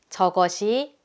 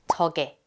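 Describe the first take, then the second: First: It is said in full, three syllables. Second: It is shortened to two syllables.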